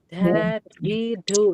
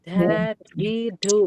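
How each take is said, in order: First: The consonants are said with audible escaping breath. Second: The same.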